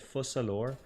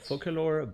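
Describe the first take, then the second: First: The middle consonant is a soft S sound. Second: The middle consonant is a hard K sound. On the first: The speaker calls it right. "her name is actually Fossalor" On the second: The speaker calls it wrong. "as people were calling her before"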